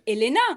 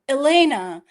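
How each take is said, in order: First: The name is said with a French pronunciation. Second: The name is said with an American pronunciation. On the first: This is how people in France say it. "Or here in France, everybody calls me" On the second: This is how people in the US say it. "Like in the U S, I was always, oh"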